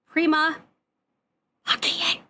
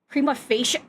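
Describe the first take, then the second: First: The c is hard, with the final vowels separate. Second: The c is soft, with the final vowels merged. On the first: The speaker calls it right. "There's no soft C in Latin, and you don't slur the I and the E together" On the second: The speaker calls it wrong. "like what a nonsense way to eh, to pronounce that"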